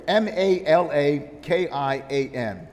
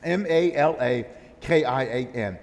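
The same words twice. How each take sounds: First: M A L A K I A N spelled slowly letter by letter. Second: M A L A K I A N spelled letter by letter; spelled again. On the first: Preacher spelling M A L A K I A N for the congregation. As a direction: spell out M A L A K I A N, each letter apart. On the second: Preacher repeating the letters M A L A K I A N. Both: Shown as a demonstration. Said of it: "is this word here".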